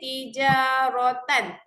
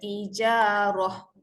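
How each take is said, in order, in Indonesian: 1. Kata itu berakhir dengan bunyi 'tan'. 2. Kata itu berakhir dengan bunyi 'h' pendek. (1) "dia berakhir tijarotan" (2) "kalau kita nak berhenti ... Dia akan dibaca tijaroh. Tak panjang pun"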